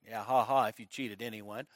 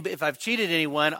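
First: Low, very soft mocking aside; muttered crowd scoff. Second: Said in the usual way. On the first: Preacher imitating the crowd reacting to Zacchaeus, muttered scoff. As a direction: mutter it like a sceptical bystander under their breath. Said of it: "everybody's like". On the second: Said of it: "and he says".

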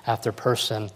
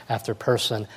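Both takes have the same delivery.

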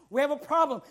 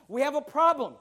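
The two takes are said the same way.

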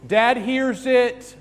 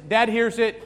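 First: Loud, high, slow Dad hears it; dramatic announcement. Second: Said in the usual way. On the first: Shown as a demonstration. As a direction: draw out Dad hears it for suspense.

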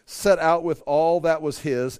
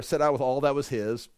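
First: "set out with all that was his" read slowly and firmly, weight on set; preacher reading the verse aloud to the congregation, slow and firm; slow scripture read. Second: Said in the usual way. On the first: Shown as a demonstration.

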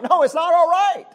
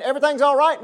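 First: Higher, louder, it's not all right; emphatic rebuttal. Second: Mocking false prophets. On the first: Real, not acted. Preacher to congregation, emphatic loud rebuttal. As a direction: shout down the false comfort. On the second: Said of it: "prophets out there saying".

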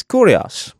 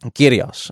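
First: "Kurios" with a rounded first vowel; "Kurios", first syllable like "koo"; Greek Kurios pronunciation. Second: "Kyrios" with an "ee" first vowel; "Kyrios", first syllable like "keer"; Greek Kyrios pronunciation. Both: Shown as a demonstration. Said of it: "how you pronounce it".

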